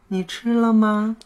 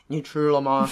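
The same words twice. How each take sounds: First: The voice is soft, high and cutesy. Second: The voice is plain, not soft or cutesy. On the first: The speaker calls it right. "我们可以先来试试这么嗲嗲的说话。" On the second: The speaker calls it wrong. "没有一个人发嗲是这种声音。"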